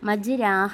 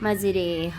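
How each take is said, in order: First: The vowel after r is a long 'a'. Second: The vowel after r is an 'e'. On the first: The speaker calls it wrong. "മജ്രാഹ എന്ന് ഉച്ചരിക്കുന്നില്ല" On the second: The speaker calls it right. "പകരം മജ്രേഹ"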